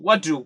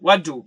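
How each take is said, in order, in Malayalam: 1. രണ്ട് വാക്കുകളും ഒന്നായി ചേർത്താണ് പറയുന്നത്. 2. രണ്ട് വാക്കുകളും ഒന്നായി ചേർത്താണ് പറയുന്നത്.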